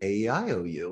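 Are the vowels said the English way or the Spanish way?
English. The vowels are said the English way. "It sounds a little bit different from"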